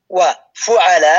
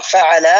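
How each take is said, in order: First: وفعل said wa, fu-ʕa-laa, with a short u on the faa; damma on faa. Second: فعل said fa-ʕa-laa, opening on a short a; fatha on faa. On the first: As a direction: pause after wa, then give وفعل as FU-ʕa-laa. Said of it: "بدون واو". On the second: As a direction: begin فعل with fa and end on a long aa. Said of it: "فاء مثلثة". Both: Shown as a demonstration.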